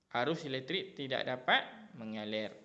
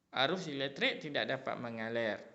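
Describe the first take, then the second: Both takes have the same delivery.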